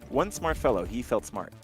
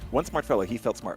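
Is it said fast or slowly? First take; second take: slowly; fast. First: It is said at a normal, slow pace. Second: It is said quickly, at a rushed pace.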